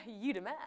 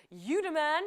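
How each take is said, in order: First: Said in the usual way. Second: Punchy, louder praise; excited praise. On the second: Real, not acted. Quiz host cheering a correct player, excited. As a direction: hype the winner up. Congratulating a player who got it right.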